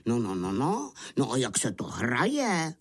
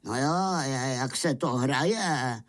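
First: Lightly voiced puzzled wolf; puzzled wolves. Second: Fed-up wolves. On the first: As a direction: ask with a hint of bewildered wolf. Surprised wolves ask about the game. (lehce zahraný nechápavý vlk) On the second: A narrator's reading. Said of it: "ptali se otrávení vlci". (lehce otrávený vlk, protahovaně)

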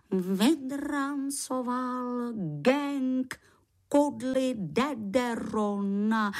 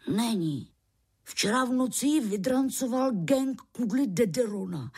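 First: Slow, drawn-out, awestruck repetition; reverent awe. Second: Said in the usual way. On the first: Acted. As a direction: savour each word with sacred awe. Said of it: "S posvátnou úctou opakoval slova". (s posvátnou úctou, pomalu)

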